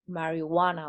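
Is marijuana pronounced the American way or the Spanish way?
American. The word is pronounced with American English sounds. "Americans say mari marijuana or something"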